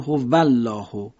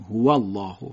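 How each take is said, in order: First: The w is made with teeth on the lower lip. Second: The w is made between both lips. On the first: The speaker calls it wrong. "اگه شما واو رو مثلا فارسی بگید" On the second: The speaker calls it right. "حرف واو عربی میگیم"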